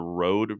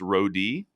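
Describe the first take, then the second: First: The name is said as one syllable. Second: The name is said as two syllables. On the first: "I'm going to go with Road" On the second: "They said it's Rodi"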